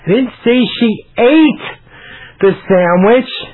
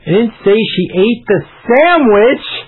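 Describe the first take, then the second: First: The word "ate" carries the main stress. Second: The word "sandwich" carries the main stress. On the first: She did something else with the sandwich. "Maybe I said she threw it away" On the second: She ate something other than the sandwich. "I said she ate the apple"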